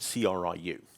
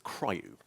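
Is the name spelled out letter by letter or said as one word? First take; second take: letters; one word. First: The name is spelled out letter by letter. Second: The name is pronounced as a single word.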